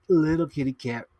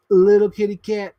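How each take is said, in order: First: Said in the usual way. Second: Higher and louder, a playful sing-song; mock-cute little kitty cat; cutesy kitty voice. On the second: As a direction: coo it like talking to a kitten. Playful repeats of a phrase.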